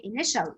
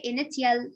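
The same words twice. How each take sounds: First: Initial with sh, i-ni-shəl; correct pronunciation. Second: Initial with a hard t, i-ni-ti-al; wrong pronunciation. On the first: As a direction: say initial as i-nish-əl. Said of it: "No, you will say initial". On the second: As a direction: sound the t in initial. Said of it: "You will not say initial". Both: Shown as a demonstration.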